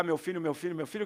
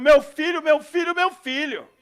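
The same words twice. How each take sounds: First: Said in the usual way. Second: Loud, high cries of a frantic mother; desperate shouting. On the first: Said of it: "pra não ter que gritar". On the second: Retold or imitated. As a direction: call out for your son in panic. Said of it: "vem uma mãe desesperada, gritando".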